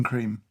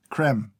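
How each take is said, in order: First: "cream" said as the English word, long ee; English pronunciation. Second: "creme" said with a short e, like "krem"; French-style pronunciation. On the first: Taster reading out the creamer's name, English "cream". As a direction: say "cream" with an ee, as in dairy cream. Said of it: "I wanna say cream". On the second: Taster correcting the creamer's name, French-style "creme". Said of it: "they don't write it like cream". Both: Shown as a demonstration.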